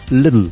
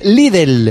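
First: It is said with an English-style pronunciation. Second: It is read with a Spanish pronunciation. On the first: The speaker calls it right. "Bien dicho es" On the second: The speaker calls it wrong. "mal dicho"

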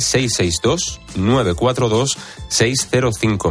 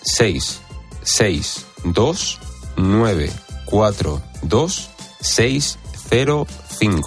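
First: The number is read quickly. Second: The number is read slowly.

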